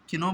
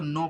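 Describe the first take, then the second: First: The k is pronounced at the start. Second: The k is silent, sounding like no. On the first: The speaker calls it wrong. "किनो बहुत से लोग पढ़ते हैं, गलत है।" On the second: The speaker calls it right. "इसको नो पढ़ते हैं"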